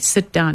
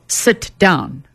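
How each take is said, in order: First: It is said in a plain voice. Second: It is said in a stern dad voice.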